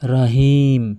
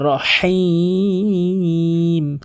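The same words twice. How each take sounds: First: The h sound is plain and light. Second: The h sound comes from deep in the throat. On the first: The speaker calls it wrong. "অধিকাংশ লোক কি বলে" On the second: The speaker calls it right. "বলতে হবে রহিম"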